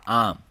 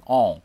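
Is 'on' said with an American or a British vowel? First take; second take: American; British. First: An open unrounded vowel with mouth wide. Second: A short rounded vowel with lips close. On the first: "美式英语它经常把这个on 它发成on，就嘴巴张很大on" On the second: "英式英语可以把它发成on ... on 一下子整个嘴巴就缩小了"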